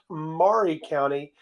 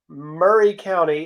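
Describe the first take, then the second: First: It is said the way outsiders read it. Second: It is said the local Tennessee way. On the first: This is how people elsewhere say the name. The speaker calls it wrong. "it's not Maury County" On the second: This is how locals say the name. The speaker calls it right. "the county seat of Murray County"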